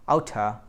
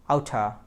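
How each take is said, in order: First: The two words blend into one reduced word. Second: The same.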